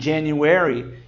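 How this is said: It is said with an American accent. "enquanto americanos dizem"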